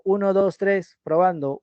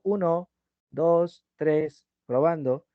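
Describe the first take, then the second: First: Said in the usual way. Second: "Uno, dos, tres, probando", each word alone, level; choppy with pauses. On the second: Shown as a demonstration. Teacher demonstrating broken-up phrases, "Uno, dos, tres, probando" with pauses between words. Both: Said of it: "¿Te das cuenta que haces pausas?".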